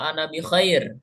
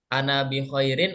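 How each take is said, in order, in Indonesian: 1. Akhiran itu dihilangkan di akhir. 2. Akhiran itu diucapkan di akhir. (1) "kita sukunkan semuanya" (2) "apakah kita baca kalimat atau huruf terakhir"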